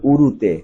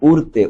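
First: "উরুতে" in three syllables, u-ru-te; standard form. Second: "উড়তে" in two syllables, ur-te; teacher shows dialect "উড়তে" without the middle u; dialect form. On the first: Teacher corrects for pupils, standard "উরুতে" as u-ru-te. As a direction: sound the middle u in "উরুতে". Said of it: "প্রমিত উচ্চারণ লেখো". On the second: Teacher quotes the exercise word, dialect "উড়তে" as ur-te. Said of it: "শব্দগুলো প্রমিত রূপ এবং প্রমিত উচ্চারণ লেখো". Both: Shown as a demonstration.

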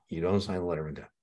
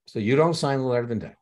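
First: Said in the usual way. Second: Don't punched higher and louder; So you DON'T sign the letter of intent, don't hit up high; stress on don't. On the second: Shown as a demonstration. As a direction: lean hard on don't, teacher drilling a rule. Teacher repeats key rule.

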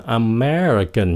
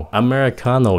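First: "American" slowly, stressed on ME; second-syllable stress. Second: "Americano" stressed on CA; fourth-syllable stress. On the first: Teacher demonstrating American, stress on second syllable. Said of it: "nhấn âm thứ nhì". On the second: Teacher demonstrating Americano, stress on CA. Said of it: "nhấn âm thứ tư". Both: Shown as a demonstration.

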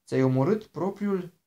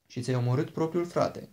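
First: Slow, higher and louder, stunned echo; startled disbelief. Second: Said in the usual way. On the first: A narrator's reading. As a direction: repeat it back, shaken and slow. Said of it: "a tresărit Jason". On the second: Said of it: "a spus Piper".

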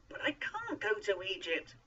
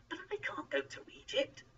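First: High, loud, stressed refusal; insistent. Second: High-pitched, worried protest. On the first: Moses refuses Egypt a second time, loudly insistent. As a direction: insist louder, leaning on "can't". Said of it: "Moses insisted". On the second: Moses objects to going to Egypt, protesting. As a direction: protest high, not yet at full volume. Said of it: "Moses protested". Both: A narrator's reading.

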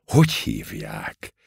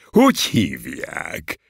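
First: Low, slow, stern question; low, withering inquiry; stern demand. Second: Drawn-out, delighted question; slow, pleased inquiry. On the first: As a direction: demand the name coldly, pitched down. Crushing colonel demands the name. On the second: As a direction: ask for the name with joyful interest. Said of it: "mondja az őrmester örvendezve". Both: A narrator's reading.

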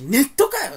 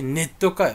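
First: Higher, louder snapped comeback; irritated retort to his mother; mock angry retort. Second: Said in the usual way. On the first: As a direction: bite back like you're fed up. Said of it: "切れた俺". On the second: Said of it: "言って、".

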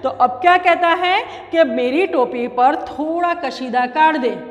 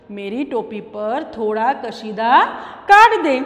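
First: Said in the usual way. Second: Mouse's request. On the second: Shown as a demonstration. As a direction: ask gently, then punch the end. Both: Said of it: "repeats the request".

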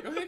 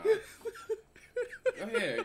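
First: Said in the usual way. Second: Very slow, much higher, laughing; slow high teasing go ahead; mock drawn-out urging. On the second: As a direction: stretch it out teasingly. Mocking the man in clip.

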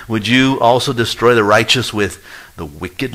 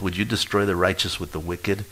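First: Louder, rising plea on "you"; pleading question. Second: Said in the usual way. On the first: Acted. Preacher voicing Abraham questioning God, loud pleading rise. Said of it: "he basically is gonna ask God". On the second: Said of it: "he asked for both".

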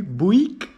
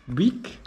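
First: "Buick" said as "buk", one syllable, rising; tentative "Buick" as "buk" with a questioning rise; trying to pronounce Buick. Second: "Buick" said as "bik", short i, rising; unsure "Buick" as "bik", asking; another try at Buick. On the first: ("Buick" jako "buk", pytająco) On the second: ("Buick" jako "bik", z wahaniem) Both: Shown as a demonstration. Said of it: "nie wiem jak się czyta".

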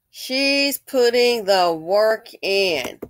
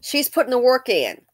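First: Very slow, every word drawn out; slow emphatic repeat. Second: Said in the usual way. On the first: Real, not acted. Vlogger insisting the woman does the labor, slow and emphatic. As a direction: stretch each word to drive the point home.

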